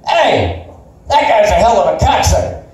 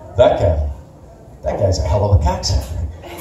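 First: It is said with anger and animosity. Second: It is said without anger, possibly admiringly.

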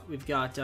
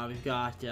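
The two takes are said the same way.

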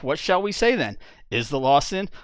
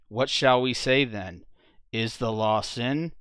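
First: It is read with a mocking, sarcastic tone. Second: It is read flatly, without expression. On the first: The idea is being ridiculed. "But what's really being said" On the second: The words are taken at face value. "deadpan reading"

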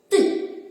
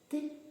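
First: The syllable is said loudly. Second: The syllable is said quietly. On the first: "А тепер голосно" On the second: "А тепер тихіше"

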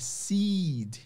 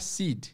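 First: The vowel is stretched long. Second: The vowel is clipped short. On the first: The speaker calls it right. "é seed. Estiquem" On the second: The speaker calls it wrong. "e não é seed"

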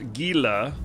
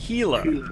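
First: The word begins with a hard G sound. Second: The word begins with an H sound. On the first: The speaker calls it wrong. "it's not pronounced Gila" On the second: The speaker calls it right. "It's pronounced Gila, like an H"

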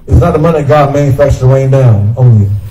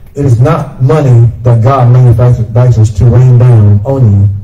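First: The sentence is read at a fast pace. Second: The sentence is read at a slow pace. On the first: The speaker calls it wrong. "A little too fast?" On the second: The speaker calls it right. "Can I read that slower?"

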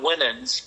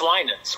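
First: The first vowel is said short. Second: The first vowel is said long. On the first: The speaker calls it wrong. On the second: The speaker calls it right.

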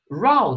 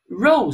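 First: The vowel sounds like 'ow'. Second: The vowel sounds like 'oh'. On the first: It means a quarrel. "ow，你看它读成这个音的时候，它其实有一个意思叫做争吵" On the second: It means a line of things. "当年我们学过row 是不是叫排呀？"

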